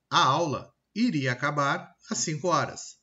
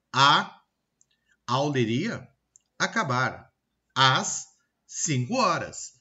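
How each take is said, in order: First: Said in the usual way. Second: "A... aula iria... acabar... às cinco horas" in broken chunks; pauses after "A", "iria", "acabar", with "às" drawn out; incorrect word linking. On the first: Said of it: "ligar as palavras na frase de forma incorreta". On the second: Shown as a demonstration. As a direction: chop it up wrongly, "aula iria" run together. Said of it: "fazendo essa ligação diferente, incorreta".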